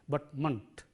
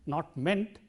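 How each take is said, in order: First: The ending has a weak, reduced vowel. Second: The ending has a full 'e' vowel. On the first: The speaker calls it right. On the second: The speaker calls it wrong.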